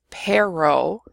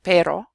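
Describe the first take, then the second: First: "pero" said PAIR-oh, American R; unrolled English R. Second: "pero" said PEH-ro with one tongue tap; tapped Spanish R. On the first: Teacher showing a learner's accent, "pero" with English R. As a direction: say "pero" with no tap at all. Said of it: "If you can't roll your R". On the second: Teacher showing the native version, "pero" with tapped R. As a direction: flick the R in "pero" like a quick d. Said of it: "instead of pero". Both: Shown as a demonstration.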